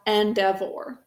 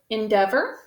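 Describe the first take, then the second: First: The word is sounded out with full, exaggerated vowels. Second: The word is said with its natural, reduced vowels. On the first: This is how the word is thought of to spell it. "We think to spell endeavor" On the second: This is how the word is normally spoken. "We pronounce this word endeavor"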